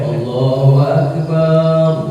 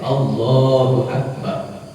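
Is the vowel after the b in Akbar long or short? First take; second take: long; short. First: The vowel after the b is drawn out long. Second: The vowel after the b is short. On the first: The speaker calls it wrong. "Nggak boleh" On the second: The speaker calls it right. "Harus pendek"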